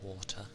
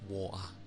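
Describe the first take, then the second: First: The middle t sound is clearly pronounced. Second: The middle t sound is dropped. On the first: "There's T's in there, so I'll still say water and butter" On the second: "I'm not going to go like water or butter. I ain't going to do that"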